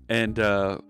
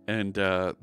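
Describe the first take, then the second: Both takes have the same delivery.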